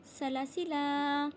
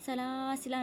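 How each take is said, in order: First: "सलासिला" slowly chanted with short second la; unstretched alif. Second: "सलासिला" with a long second laa; wrongly stretched alif. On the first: Teacher answering how to read, slow "सलासिला", short middle. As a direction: recite "सलासिला" without stretching the middle. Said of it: "क्या पढ़ेंगे?". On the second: Teacher showing what not to read, "सलासिला" stretched. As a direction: drag out the middle laa of "सलासिला". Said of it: "सलासिला नहीं पढ़ना". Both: Shown as a demonstration.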